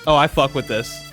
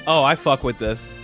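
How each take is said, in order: Both takes have the same delivery.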